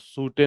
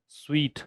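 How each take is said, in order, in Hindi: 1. यह दो अक्षरों में बोला जाता है, जैसे 'sootay'। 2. यह एक अक्षर में बोला जाता है, जैसे 'sweet'। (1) "सूटे नहीं है" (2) "इसको स्वीट पढ़ते हैं"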